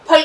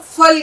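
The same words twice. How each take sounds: First: Said in the usual way. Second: फल said with an F sound, as "fal"; common mispronunciation. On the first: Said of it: "पे और दो चश्मे ये की आवाज". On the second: Shown as a demonstration. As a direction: say फल wrongly, starting with फ़ (fe). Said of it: "फे से बोलते हैं".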